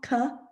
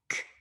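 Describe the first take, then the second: First: The k sound is drawn out with a vowel. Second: The k sound is clipped very short. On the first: The speaker calls it wrong. "it's not k" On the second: The speaker calls it right. "we try and make it as short as possible"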